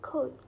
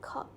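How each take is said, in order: First: The vowel glides as a diphthong. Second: The vowel is a single unchanging sound. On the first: "the word like coat" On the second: "would sound more like coat when a German English speaker pronounces it"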